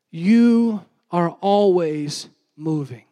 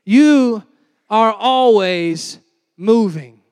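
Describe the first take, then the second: First: Each word set apart, "You are always moving" said very slowly; slow emphatic statement. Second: "You" hit alone, then "are always moving" very slowly and louder; louder emphatic restatement. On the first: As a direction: lay it down slowly like a key truth. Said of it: "Everybody say, "Moving". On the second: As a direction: punch it home to the room. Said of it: "We need to wake up a little bit". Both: Shown as a demonstration.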